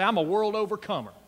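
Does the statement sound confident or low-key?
low-key. It is said in a plain, low-key way.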